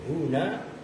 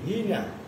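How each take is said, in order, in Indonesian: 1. Vokal setelah h adalah u. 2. Vokal setelah h adalah i. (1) "dengan dibaca dhammah haknya" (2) "membaca kasroh hak"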